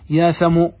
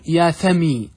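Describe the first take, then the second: First: The name ends in a long oo sound. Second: The name ends in a long ee sound. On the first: The dropped final letter is still felt as missing. "على لغة من ينتظر الحرف يا ثمو ... بواو ساكنة" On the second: The shortened name is treated as a complete name. "وعلى لغة من لا ينتظر تقول يا ثمي"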